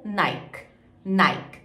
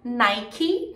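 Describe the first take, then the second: First: "Nike" in one syllable, "naik"; falling "Nike" without final I; regional variant. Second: "Nike" as "NAI-kee"; two syllables in "Nike", rising; final I. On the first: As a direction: stop "Nike" on the K. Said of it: "Vai depender da região". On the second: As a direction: voice the ending of "Nike". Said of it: "com esse I no final". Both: Shown as a demonstration.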